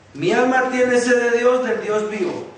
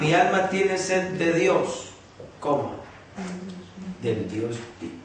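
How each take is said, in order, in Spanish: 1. Se lee seguido, sin pausa. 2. Hay una pausa clara después de 'de Dios'.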